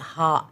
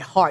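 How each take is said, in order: First: The word ends on an open vowel. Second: The word ends with a hard r consonant. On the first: The speaker calls it right. "You say ha" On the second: The speaker calls it wrong. "You don't hit hard"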